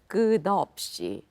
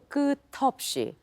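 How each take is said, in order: First: The middle consonant sounds like a D. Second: The middle consonant sounds like a T. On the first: The speaker calls it right. "it T would become more D" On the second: The speaker calls it wrong. "Instead of"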